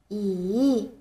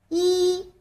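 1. 音高先降到低，然后上升。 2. 音高保持高而平。

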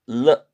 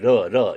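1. 이 자음은 혀끝을 입천장에 댄 분명한 L 소리입니다. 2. 이 자음은 가볍게 튀기는 한국식 소리입니다. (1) "혀끝이 입천장에 붙습니다 ... 러 이렇게 하세요" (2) "러 이러지 마시고"

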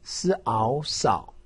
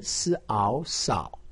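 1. 音高先降到低，再升起来。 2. 音高先降到低，再升起来。

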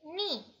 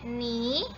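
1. Nadanya turun tajam dari tinggi ke rendah. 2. Nadanya naik dari tengah ke tinggi.

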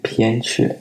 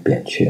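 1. 第一个音节以送气的 p 音开头。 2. 第一个音节以不送气的 b 音开头。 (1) "其实我个人认为应该念偏鹊" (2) "大家就约定俗成了念扁鹊"

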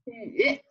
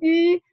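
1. 音高先降到低，然后上升。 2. 音高保持高而平。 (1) "三声读" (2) "一声读吁"

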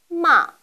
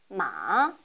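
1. 음높이가 가장 높은 데서 가장 낮은 데까지 떨어집니다. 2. 음높이가 낮게 내려갔다가 살짝 올라갑니다. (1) "가장 높은 음에서 가장 낮은 음까지 떨어지는 음입니다" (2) "약간 낮은 음에서 가장 낮은 위치까지 내렸다가 살짝 올리시면 됩니다"

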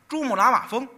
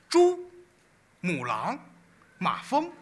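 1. 说得很顺，没有停顿。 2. mafeng前断开，有停顿。

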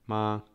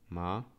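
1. Wysokość głosu jest równa. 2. Wysokość najpierw opada, a potem rośnie. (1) "Pierwszy ton, ton taki równy" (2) "Trzeci ton tak opadająco wznoszący"

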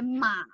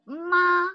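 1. Die Tonhöhe sinkt tief und steigt dann wieder. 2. Die Tonhöhe bleibt hoch und gleichmäßig. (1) "if we say in the third tone, we say ma, which is horse" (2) "Ma means mother"

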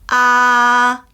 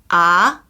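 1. 이 음절은 1성입니다. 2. 이 음절은 2성입니다. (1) "1성" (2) "2성"

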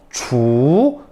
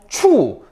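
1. 음 높이가 중간에서 높게 올라가요. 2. 음 높이가 높은 데서 낮게 급하게 떨어져요. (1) "이성" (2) "사성"

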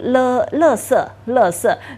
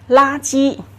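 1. 这个词读作 lèsè。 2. 这个词读作 lāji。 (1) "有人读垃圾，但这个应该不是正确的" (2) "正确是垃圾"

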